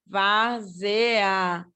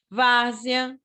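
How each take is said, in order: First: "Várzea" pulled apart into vár-ze-a; slow teacher breakdown of "Várzea", vár-ze-a; syllable by syllable. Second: Said in the usual way. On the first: Shown as a demonstration. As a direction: sound out each vowel of "Várzea" separately. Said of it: "o E tá mais fraquinho do que o A".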